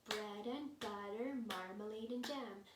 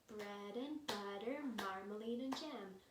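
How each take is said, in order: No difference in how they are said.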